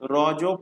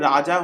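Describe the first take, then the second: First: It is said as one syllable, roj. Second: It is said with two syllables, raja. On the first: This is the actual pronunciation. The speaker calls it right. "Actual উচ্চারণ হলো রজ পর্ব" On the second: This is how the English spelling reads. The speaker calls it wrong. "ইংলিশে রাজা হয়ে যাচ্ছে উচ্চারণ"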